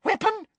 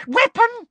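First: High, keen echo of the word; Weapon? as a high, eager question; eager surprise. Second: Higher and louder, gleeful; Weapon? repeated high, loud and thrilled; excited repeat. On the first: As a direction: pounce on it with delight. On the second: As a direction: seize the word, thrilled. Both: A narrator's reading. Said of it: "eyes seemed to pop with excitement".

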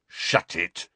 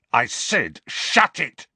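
First: Understated snarl at usual pitch; curt, contained warning. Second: High, loud retort; exasperated command, jumping up in pitch; angry repeated order. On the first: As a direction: snarl it without raising your voice. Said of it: "snarled Dudley". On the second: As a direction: raise your voice to silence the teasing. Repeats his order to taunting cousin. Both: A narrator's reading.

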